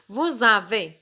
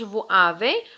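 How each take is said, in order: First: The words are linked with a z sound. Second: The words are said separately with no z sound. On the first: The speaker calls it right. "دير لي ليزون الربط" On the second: The speaker calls it wrong. "ما كنقولوش"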